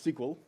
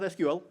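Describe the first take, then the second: First: It is said as one word, "sequel". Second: Each letter is said separately, one by one. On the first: The speaker calls it right. "it's S Q L" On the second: The speaker calls it wrong. "It's not S Q L"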